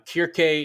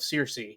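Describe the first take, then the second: First: The name begins with a hard K sound. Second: The name begins with a soft S sound. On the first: This is the Greek form of the name. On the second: This is the usual English form of the name.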